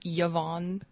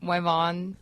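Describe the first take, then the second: First: The name begins with a vowel sound. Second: The name begins with a W sound. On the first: This is the name as it should be said. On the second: This is how others sometimes mispronounce the name.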